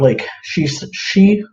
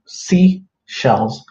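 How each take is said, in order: First: "she, she" with a sh sound where sea belongs; stumbling on "she"; tongue slip. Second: Said in the usual way. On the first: Real, not acted. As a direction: trip over "she" instead of sea. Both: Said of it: "I can't say it right".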